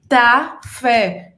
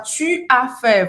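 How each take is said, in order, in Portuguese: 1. O 'u' é apagado, dando 'ta fait'. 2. O 'u' de 'tu' é pronunciado totalmente. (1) "A gente fala tá fé, não fala o u" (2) "aqui a gente não fala tu as fait"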